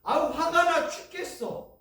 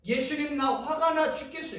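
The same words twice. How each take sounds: First: High, loud fed-up outburst; angry grumble. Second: Angry prayer. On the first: Retold or imitated. Believer venting anger before turning it to prayer. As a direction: vent the anger, higher and louder. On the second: Shown as a demonstration. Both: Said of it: "이건 엄청난 기도예요".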